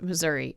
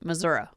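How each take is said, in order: First: It is said the way outsiders pronounce it. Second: It is said the way locals pronounce it. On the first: The speaker is not from the state. "if you're a normal person, you pronounce it Missouri" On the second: The speaker is from the state. "If you're from Missouri, you pronounce it Missouri"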